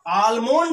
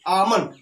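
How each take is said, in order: First: The L sound is clearly pronounced. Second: The L sound is left silent. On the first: The speaker calls it wrong. "आलमोंड नहीं कहेंगे" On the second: The speaker calls it right. "यल silent है और इसको आमंड बोलेंगे"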